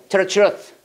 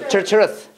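The two takes are said the same way.

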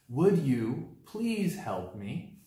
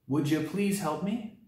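First: Every word is said fully and separately. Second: The words run together with reduced sounds.

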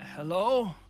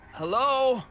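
First: The word is said hesitantly and unsure. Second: The word is said with more confidence. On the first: "Very, very tentatively at first" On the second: "And then a little bit more confidence"

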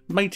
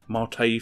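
First: The word is said the English way. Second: The word is said the international way. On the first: This is how English speakers say it. "Mate is for the English, real English speaking people" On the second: This is how the rest of the world says it. "Mate for the rest of the world"

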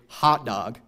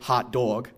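First: Both vowels are unrounded. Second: The first vowel is unrounded, the second rounded. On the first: "Midwesterners will typically say hot dog, right? And that would be two unrounded vowels" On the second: "New Yorkers will say hot dog, right? Which is one unrounded and then one rounded vowel"

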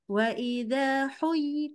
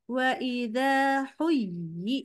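First: The pitch is held high on huyyi. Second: The pitch drops on huyyi. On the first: The speaker calls it right. "tahan nadanya tinggi" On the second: The speaker calls it wrong. "Jadi pas huyyi turun"

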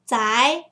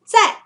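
First: The pitch rises across the syllable. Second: The pitch falls sharply across the syllable. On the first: "I'll add a second tone" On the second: "if I end the last tone here, the first one, zai, means at or in"

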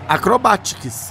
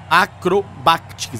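First: No separate C sound is heard before the T. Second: A C sound is heard before the T. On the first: The speaker calls it right. "Agora isso" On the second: The speaker calls it wrong. "você tá falando o som do C antes do T"

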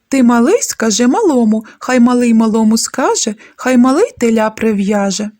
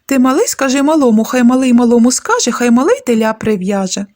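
First: It is recited at a faster speed. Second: It is recited at the fastest speed. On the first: "але у швидшому темпі" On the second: "А ще швидше"

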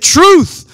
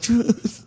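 First: It is said loudly, with lots of energy. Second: It is said sleepily, with low energy.

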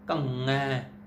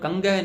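First: Only a throat nasal ng sound, no hard g. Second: A hard g sound follows the nasal. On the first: The speaker calls it right. "ਗੰਗਾ ਹੈ, ਕੰਗੈ" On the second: The speaker calls it wrong. "ਇਹਨੂੰ ਕੰਗੈ ਨਹੀਂ ਕਹਿ ਦੇਣਾ, ... ਗੱਗਾ ਨਹੀਂ ਲਾਉਣਾ"

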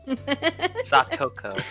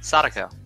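First: The middle consonant is a clear T sound. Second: The middle consonant sounds like a soft D. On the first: The speaker calls it right. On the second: The speaker calls it wrong.

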